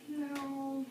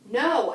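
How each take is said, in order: First: It is said hesitantly and weakly. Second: It is said forcefully and angrily.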